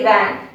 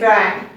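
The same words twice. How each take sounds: First: It starts with flat lips, a V sound. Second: It starts with rounded lips, like a W. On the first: The speaker calls it right. "We say van" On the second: The speaker calls it wrong. "We don't say van"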